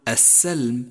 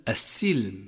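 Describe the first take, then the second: First: The S is followed by an 'a' vowel. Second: The S is followed by an 'i' vowel. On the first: The speaker calls it wrong. "فالسين مشددة مكسورة وليست مفتوحة، فلا تقل" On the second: The speaker calls it right. "فالسين مشددة مكسورة ... بل"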